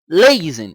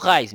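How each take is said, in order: First: The name begins with an L sound. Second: The name begins with an R sound. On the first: This is the original Japanese form. "em japonês, significa Leizen. Eles falam Leizen" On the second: This is the Brazilian adapted form. "Em português chamado Raizen"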